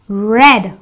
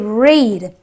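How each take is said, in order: First: The vowel is a short 'eh' sound. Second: The vowel is a long 'ee' sound. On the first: The speaker calls it right. "The E A gives me the S sound, so I say red" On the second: The speaker calls it wrong. "I don't say read"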